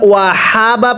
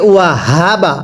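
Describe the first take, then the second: First: The h is a light, plain breath. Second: The h is voiced deep in the throat. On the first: The speaker calls it wrong. "পড়া শুদ্ধ হবে না" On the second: The speaker calls it right. "হাটা আওয়াজ দিয়ে পড়তে হবে"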